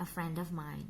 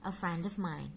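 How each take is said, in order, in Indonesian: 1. 'Of' diucapkan lemah dengan vokal tereduksi. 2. 'Of' diucapkan lemah dengan vokal tereduksi.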